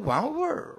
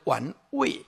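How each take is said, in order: First: The word ends with a curled-tongue r sound. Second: The word ends plainly, without an r-colored sound. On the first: "北京腔叫这最值得玩味儿, 就是卷舌啊" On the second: "台语叫做玩味啊"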